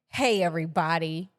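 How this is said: It is said in a proud tone.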